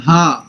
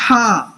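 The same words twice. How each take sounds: First: ہا۔ said as a plain Urdu ہ from the chest, no throat hiss; ordinary ہا۔ as in Urdu. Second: ہا، said as Arabic ح from the middle of the throat with a breathy hiss; throaty ḥa. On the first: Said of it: "not ہا". (ہا۔ عام اردو ہ کی طرح سینے سے) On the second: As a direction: breathe out a husky ح in ہا،. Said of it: "It's ہا، not ہا". (ہا، حلق کے درمیان سے ح کی آواز میں) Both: Shown as a demonstration.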